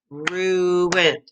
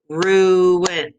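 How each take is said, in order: First: Said in the usual way. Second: "Ruined" split into two beats, RU-INED; clapped syllables. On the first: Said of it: "Two syllables". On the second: Shown as a demonstration. Teacher clapping syllables for the class. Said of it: "let's clap the syllables".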